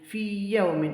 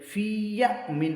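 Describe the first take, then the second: Both takes have the same delivery.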